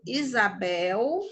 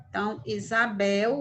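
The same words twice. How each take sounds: First: "Isabel" slow, the S buzzed as a Z with a rising end; S sounded as Z. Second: "Isabel" with the S as a Z, said at normal speed; "Isabel" again, S like a Z, at normal speed; S sounded as Z. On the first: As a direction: say "Isabel" slowly, S like a Z, lifting at the end. ("Isabel" devagar, S com som de Z, subindo no final) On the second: ("Isabel" com o S soando como Z, no ritmo normal) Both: Shown as a demonstration. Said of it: "o S aqui tá com som de Z".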